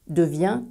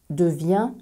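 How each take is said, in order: No difference in how they are said.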